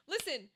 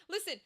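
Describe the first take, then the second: No difference in how they are said.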